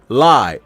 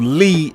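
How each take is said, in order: First: The name has an 'eye' vowel sound. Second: The name has an 'ee' vowel sound.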